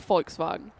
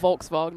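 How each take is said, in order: First: The first letter is said as an F. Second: The first letter is said as a V. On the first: The speaker calls it right. "V you pronounce as an F" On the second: The speaker calls it wrong. "it's not"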